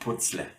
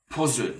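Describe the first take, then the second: First: The z is a voiceless, hissing sound. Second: The z is a voiced, buzzing sound. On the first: The speaker calls it wrong. "You don't say putzle in German" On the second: The speaker calls it right. "which has a soundy z"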